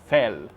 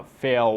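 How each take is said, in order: First: "fel" with an Indian accent, L pressed on the teeth. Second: "fel" with a long dark L, tongue not touching. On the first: Teacher shows the student what to avoid, Indian-accented "fel". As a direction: give "fel" an Indian-accented hard, clear L. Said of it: "sotaque de indiano". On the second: Teacher shows the student the right way, "fel" with dark untouched L. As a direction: let "fel" glide out, L only leaning toward the teeth. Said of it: "Você tem que falar". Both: Shown as a demonstration.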